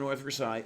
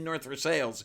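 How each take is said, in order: First: Versailles is given a French pronunciation. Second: Versailles is given a local English pronunciation. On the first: This follows the name's original French form. "I pronounce it that way" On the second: This is how locals say the town's name. "they call it North Versailles"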